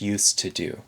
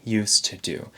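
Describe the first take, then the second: First: The word 'to' has a reduced 'uh' vowel. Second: The same.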